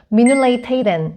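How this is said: It is said in the Prague dialect form. This marks the speaker as from the Prague region. "프랑스 사람들은 미눌레이 테이덴 이런 식으로 표현을 합니다"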